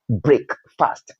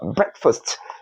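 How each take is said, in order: First: The first vowel is a different sound. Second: The first vowel is a short 'e' sound. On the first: The speaker calls it wrong. "not uh, breakfast" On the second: The speaker calls it right. "So that's uh, breakfast"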